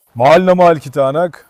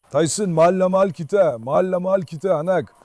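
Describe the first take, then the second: First: Loud. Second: Tender. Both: Real, not acted. Praising the dog.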